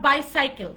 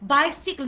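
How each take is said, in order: First: The second syllable sounds like 'sigh'. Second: The second syllable sounds like 'sick'. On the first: The speaker calls it wrong. "Not বাইসাইকেল সাইকেল হবে না" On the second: The speaker calls it right. "Pronounce it like বাইসিকল"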